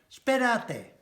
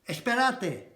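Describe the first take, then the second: First: The opening e sound is dropped entirely. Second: The opening e sound is pronounced in full.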